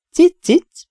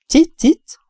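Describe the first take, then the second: First: Very high sweet wheedle on "Cic, cic"; coaxing cat call. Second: Very high, sweet "Cic, cic" like melted honey; honeyed cat call. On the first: Vet up the tree coaxing the cat, very high and sweet. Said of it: "hízelegtem ellenállhatatlan macska hívó hangomon". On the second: Vet reaching along the branch, coaxing the cat in honeyed tones. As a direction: pour "Cic, cic" out high and sugary. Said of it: "Hangom akár az olvasztott méz". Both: A narrator's reading.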